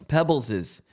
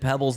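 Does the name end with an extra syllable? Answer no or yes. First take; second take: yes; no. First: The name ends with an extra syllable. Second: The name has no extra final syllable. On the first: The speaker calls it right. "you have to pronounce it Pebbles's" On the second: The speaker calls it wrong. "if you said Pebbles longevity, it would be her name would be Pebble"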